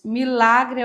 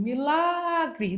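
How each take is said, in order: First: Said in the usual way. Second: MILAGRE with LA stretched long and high; stressed syllable demo. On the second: Shown as a demonstration. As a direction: draw out the LA in Milagre, raised pitch. (Milagre com a sílaba LA alongada e mais aguda) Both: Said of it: "Não, ela é paroxítono".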